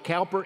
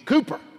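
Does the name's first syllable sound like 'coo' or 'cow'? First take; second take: cow; coo. First: The first syllable rhymes with 'how'. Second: The first syllable rhymes with 'who'. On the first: The speaker calls it wrong. "it is not Cowper" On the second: The speaker calls it right. "it is Cooper"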